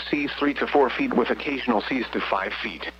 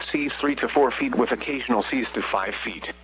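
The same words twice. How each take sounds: The two takes are said the same way.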